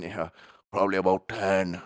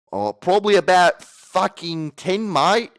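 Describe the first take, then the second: First: Put-on light Irish-accented reply; imitated Irish accent. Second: High, loud, slow caricature voice; hammed-up retake. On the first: Pet cremator telling his daily record, light Irish accent. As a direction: answer as an Irishman, lightly done. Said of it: "he went Irish". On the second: Pet cremator boasting his daily record, loud hammed-up voice. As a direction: blow it up into a shouted cartoon reply. Redoes the Irish line in bigger voice.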